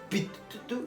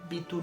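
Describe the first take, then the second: First: The t sound is held long and doubled. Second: The t sound is short and single. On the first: "no sé cómo pronunciar Bitu con dos T's" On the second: "digo Bitu normal"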